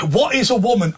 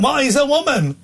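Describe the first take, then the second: First: Said in the usual way. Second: High, challenging jeer at the start; imitating a heckler jeering on the tube; mocking heckler. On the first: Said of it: "They went". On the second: Stranger on the tube jeers at the presenter, mimicked mock challenge. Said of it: "Right, like this".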